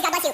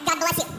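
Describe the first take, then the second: First: Said in the usual way. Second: Pointed. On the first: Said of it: "Which, you know, is". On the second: Shown as a demonstration. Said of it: "I said it like that".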